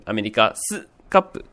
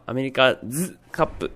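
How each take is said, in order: First: アメリカスカップ with an unvoiced hissed "su" before カップ; voiceless s in アメリカスカップ. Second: アメリカズカップ with a buzzing "zu" before カップ; voiced z in アメリカズカップ. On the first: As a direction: keep the ス in アメリカスカップ sharp and voiceless. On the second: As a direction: voice the ズ in アメリカズカップ clearly. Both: Shown as a demonstration. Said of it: "アメリカスカップと発音すると".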